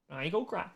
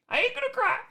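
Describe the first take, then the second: First: Said in the usual way. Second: High whiny falsetto, pretending to cry; mock crybaby voice. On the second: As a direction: squeak it out like a whiny kid.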